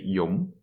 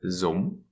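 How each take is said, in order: First: The word begins with a y sound. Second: The word begins with a z sound. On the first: "they say yum as" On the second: "they do mix up their consonants"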